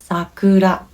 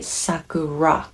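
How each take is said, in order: First: It is said with a Japanese r sound. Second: It is said with an English r sound. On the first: The speaker calls it right. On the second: The speaker calls it wrong.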